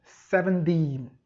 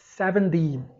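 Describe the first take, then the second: First: It is said in an American accent. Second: The same.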